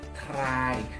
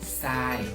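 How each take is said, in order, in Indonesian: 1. Kata itu diawali dengan bunyi tr. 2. Kata itu diawali dengan bunyi s. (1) "bukan dibaca try" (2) "tapi dibacanya sai"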